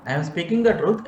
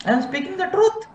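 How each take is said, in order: First: Said in the usual way. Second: Mock self-righteous. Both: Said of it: "Can I call a blind man".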